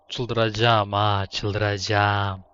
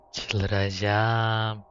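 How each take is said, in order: First: Slow drawn-out groan. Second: Said in the usual way. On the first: Real, not acted. Repeats in frustration.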